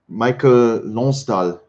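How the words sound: The name is pronounced the French way. "it's pronounced French"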